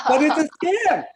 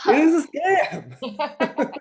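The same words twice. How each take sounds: First: Said in the usual way. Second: "is" drawn out slow and leaned on; stress on is. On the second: Shown as a demonstration. Comic insisting to the crowd it really is a scam, stressing "is". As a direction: hit "is" hard, slowly, to insist.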